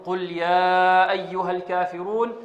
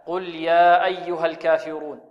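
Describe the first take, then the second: First: Slow recitation, يا in "قل يا أيها الكافرون" held four counts; over-stretch the يا of "قل يا أيها الكافرون"; four-count madd. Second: Measured two-count stretch on يا in "قل يا أيها الكافرون"; two-count madd. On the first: Retold or imitated. Teacher imitating students' reading, long four-count stretch on يا. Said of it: "بمقدار أربع حركات أو ثلاث حركات".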